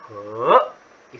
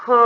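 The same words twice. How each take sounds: First: "he" slowly rising from low; second tone. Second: "he" held high and level; "he" steady up high, no glide; first tone. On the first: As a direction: say "he" in Mandarin second tone, stretched and climbing. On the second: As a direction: say "he" in Mandarin first tone, high and flat. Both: Shown as a demonstration. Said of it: "first tone and second tone".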